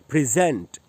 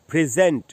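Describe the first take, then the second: First: The stress is on the second syllable. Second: The stress is on the second syllable.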